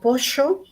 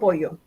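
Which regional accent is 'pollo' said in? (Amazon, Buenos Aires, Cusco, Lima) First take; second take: Buenos Aires; Lima. First: It is said in a Buenos Aires accent. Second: It is said in a Lima accent. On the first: "Alguien en Buenos Aires dirá" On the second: "Alguien de Lima nos dirá"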